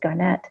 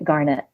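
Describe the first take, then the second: First: It is not said like the gemstone word. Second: It is said like the gemstone word garnet. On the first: This is how the man says his own name. The speaker calls it right. "he introduced himself as Garnett" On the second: This is how a colleague kept saying it. The speaker calls it wrong. "pronounced it Garnet, like the stone"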